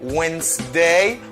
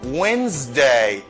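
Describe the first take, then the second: First: The middle consonant is an S sound. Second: The middle consonant is a Z sound. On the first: The speaker calls it wrong. "M'pap di" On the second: The speaker calls it right. "S la li ba mon son Z"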